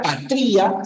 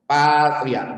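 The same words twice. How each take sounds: First: "patria" wrongly as pa-TRÍ-a; stress on I. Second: "Patria" as PAA-tria, ending in one glide; stress on PA. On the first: Teacher posing a wrong pronunciation, stressed TRÍ in "patria". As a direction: move the stress in "patria" to I, making a hiatus. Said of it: "Si la pronunciación fuera patria". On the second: Teacher restoring the correct form, stressed PA in "Patria". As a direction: stretch the stressed first A of "Patria". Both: Shown as a demonstration.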